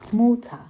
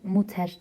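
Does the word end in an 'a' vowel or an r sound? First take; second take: a vowel; r sound. First: The word ends in an open 'a' vowel. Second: The word ends in a pronounced r sound. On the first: The speaker calls it right. "AE şeklinde okunuyor. Muta" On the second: The speaker calls it wrong. "Muter değil"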